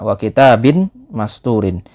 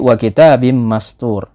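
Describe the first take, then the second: First: It is read plainly, without tajwid sound changes. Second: It is read with tajwid sound changes applied.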